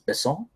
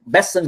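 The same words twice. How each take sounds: First: The name is said the French way. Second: The name is said the American English way.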